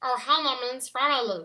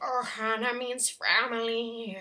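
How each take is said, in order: First: A strongly gravelly, throat-closed cartoon voice. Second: A milder, toned-down gravelly voice. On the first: "take what you do when you do the Stitch voice from Lilo and Stitch" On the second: "And then just tone that down a little bit"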